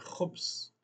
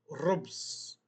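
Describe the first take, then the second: First: The word starts with a throaty kh sound. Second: The word starts with an r sound. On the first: The speaker calls it right. "é khubz" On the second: The speaker calls it wrong. "Não podemos falar rubz"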